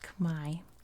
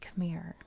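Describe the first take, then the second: First: It is said with the native Khmer pronunciation. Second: It is said with the English pronunciation. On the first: "That's how you say it in the Khmer language" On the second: "But in English, we say Khmer"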